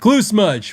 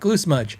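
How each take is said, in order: First: It is said in an annoyed, disapproving way. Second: It is said in a shrugging, unbothered way. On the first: The flaw is not acceptable on an expensive item. "fifteen hundred dollars ... what's with that?" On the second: The flaw does not matter much on a cheap item. "one hundred fifty dollars ... eh"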